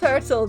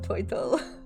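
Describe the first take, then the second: First: The word is said in a plain, normal way. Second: The word is said in a funny, distorted way.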